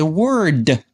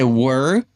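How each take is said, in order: First: The final consonant is clearly pronounced. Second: The final consonant is dropped or weakened. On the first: The speaker calls it right. "we say word" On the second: The speaker calls it wrong. "We we don't say word"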